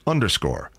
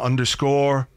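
First: The pitch falls at the end, sounding finished. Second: The pitch rises at the end, sounding unfinished. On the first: The list is over. The speaker calls it right. "My intonation was wrong on that last underscore" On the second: Something else is still coming. The speaker calls it wrong. "because it sounds like there's something else coming"

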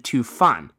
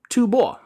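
First: The second syllable is pronounced 'fan'. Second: The second syllable is pronounced 'bo'. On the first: The speaker calls it wrong. "the one I'd been reading as Fan" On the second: The speaker calls it right. "can actually be pronounced as Bo, and in the case of the Tibetan kingdom, ought to"

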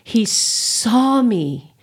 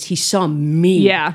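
First: The stress falls on the word saw. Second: The stress falls on the word me. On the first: He actually looked at her. "the first one is" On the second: He saw who she really is. "He saw the real me"

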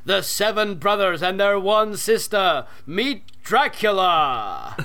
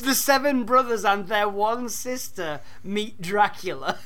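First: It is said in a big, booming announcer voice. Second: It is said in a normal speaking voice.

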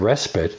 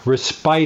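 First: The word is said in its usual way. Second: The word is read out as it is spelled. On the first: The speaker calls it right. "instead of respite" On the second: The speaker calls it wrong. "another person said respite"

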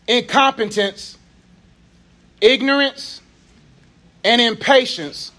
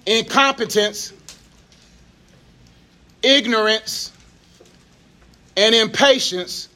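First: The list is said fast. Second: The list is said slowly.

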